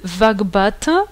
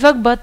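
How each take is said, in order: First: The word ends with a full final vowel. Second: The word ends with the final vowel dropped. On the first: "Au lieu de Vagbata" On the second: "on dit Vagbat"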